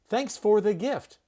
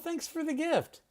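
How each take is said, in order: First: 'For' is said fully, with a clear vowel. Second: 'For' is reduced, sounding like 'fur'. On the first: The speaker calls it wrong. "You would not say" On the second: The speaker calls it right. "You'd say"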